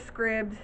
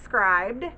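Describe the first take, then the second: First: The vowel is short, like the word scribble. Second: The vowel is long, like the word scribe. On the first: Other people say the name this way. "Some of you guys like to say Scribd" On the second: The speaker reads the name like scriber. "when you're a scriber, like a transcriber, that's what it looks like to me"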